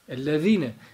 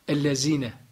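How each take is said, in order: First: The middle consonant is a lisped th sound. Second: The middle consonant is a plain z sound. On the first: The speaker calls it right. "Peltek olacak" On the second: The speaker calls it wrong. "Mesela V'ler ne okunur? Z"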